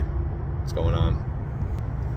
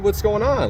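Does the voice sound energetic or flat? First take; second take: flat; energetic. First: It is said in a flat, lifeless voice. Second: It is said in a happy, energetic voice. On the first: The person is worn out and not feeling emotions. "the life is just kind of devoid from them in their tone" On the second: The caller feels joyful and lively. "I'm all happy, I'm joyous, I have this energy"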